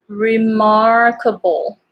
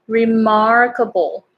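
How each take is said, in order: No difference in how they are said.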